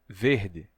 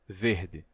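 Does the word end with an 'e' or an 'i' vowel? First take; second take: i; i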